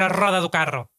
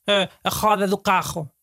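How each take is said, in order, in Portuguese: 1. Os sons do r são pronunciados à maneira regional tradicional. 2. Os sons do r são pronunciados à maneira de Lisboa. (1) "em vez de dizer" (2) "Agora os cachopos dizem todos"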